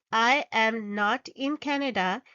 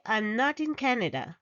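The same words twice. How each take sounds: First: Said in the usual way. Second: I'm not in Canada with I'm run together; contracted I'm. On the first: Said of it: "Rather than saying". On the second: Shown as a demonstration. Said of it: "we say".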